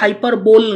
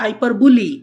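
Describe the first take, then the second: First: The word ends with a one-syllable 'bowl' sound. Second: The word ends with a two-syllable 'bully' sound. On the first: The speaker calls it wrong. "উচ্চারণটা কিন্তু হাইপার বোল নয়" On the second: The speaker calls it right. "উচ্চারণটা হাইপার বুলি"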